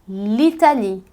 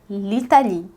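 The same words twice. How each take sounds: The two takes are said the same way.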